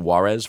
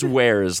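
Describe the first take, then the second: First: The word sounds like 'Juarez'. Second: The word sounds like 'wares'. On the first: The speaker calls it wrong. "I think I pronounced it Juarez for a long time" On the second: The speaker calls it right. "but I think it's Wares"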